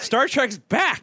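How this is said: It is said in an excited, high-energy way. The speaker calls it right.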